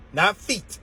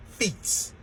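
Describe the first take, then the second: First: Said in the usual way. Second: Whispered feet. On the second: Shown as a demonstration. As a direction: breathe the word feet as a soft whisper. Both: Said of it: "I said feet".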